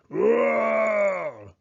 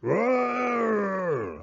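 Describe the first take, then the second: First: Loud, high shouted bear roar. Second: High angry bear roar. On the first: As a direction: let out a big roar. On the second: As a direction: roar at losing the game. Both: Acted. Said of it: "Old Bear roared".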